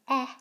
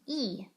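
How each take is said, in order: First: The vowel is said as a short sound. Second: The vowel is said as a long sound. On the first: The speaker calls it wrong. "I'm not going to say its short sound" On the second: The speaker calls it right. "I will say its name"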